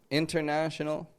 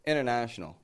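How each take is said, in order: First: The T after the N is clearly pronounced. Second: The T is dropped and the N is short. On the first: It sounds serious and demanding. "that first way that I said it, it really does just sound a lot more kind of serious" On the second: It sounds casual, like everyday use. "The second, it's way more casual"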